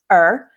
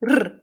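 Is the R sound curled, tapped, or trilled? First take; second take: curled; trilled. First: The R is a smooth sound with a curled tongue. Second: The R is a rapid rolled trill. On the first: "in the post-alveolar space, usually with the tongue curling back somewhere in the space below the hard palate" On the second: "or even a trill r"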